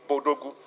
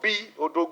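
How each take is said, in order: First: The B joins the word as one syllable. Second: The B is said as a separate letter name. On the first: It is treated as an African word. The speaker calls it right. "it is Bodogu" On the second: It is treated as an English acronym. The speaker calls it wrong. "don't call it B Odogu"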